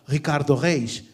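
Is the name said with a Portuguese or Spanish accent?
Portuguese. The name is said with a Portuguese accent. "sino que diría"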